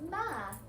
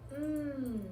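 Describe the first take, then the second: First: A short m sound followed by a vowel. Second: A continuous hum with no vowel after it. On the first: The speaker calls it wrong. "not ma" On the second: The speaker calls it right. "make sure you're saying mmm"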